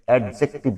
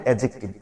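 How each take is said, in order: First: অ্যাডজেক্টিভ said the mistaken way; teacher showing how অ্যাডজেক্টিভ should not sound; wrong pronunciation. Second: অ্যাডজেক্টিভ said clearly, each syllable sounded; teacher modelling অ্যাডজেক্টিভ the correct way; correct pronunciation. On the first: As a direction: demonstrate the incorrect অ্যাডজেক্টিভ to avoid. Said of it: "অ্যাডজেক্টিভ না". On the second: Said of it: "এটির উচ্চারণ হবে". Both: Shown as a demonstration.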